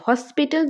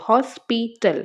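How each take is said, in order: First: Said in the usual way. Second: হসপিটাল broken into হস, পি, টাল; said in three parts. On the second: Shown as a demonstration. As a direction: separate each syllable of হসপিটাল. (হসপিটাল তিন পার্টে আলাদা করে, হস-পি-টাল) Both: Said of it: "তিনটা পার্টে বলতে হচ্ছে".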